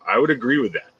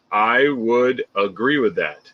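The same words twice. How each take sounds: First: "would" hit hardest, quick; stress on would. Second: Slow, with weight on "I"; "I" stressed, slow and deliberate. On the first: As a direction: push the word "would". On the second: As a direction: lean on "I" to claim the view. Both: Shown as a demonstration. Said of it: "restated with shifted stress".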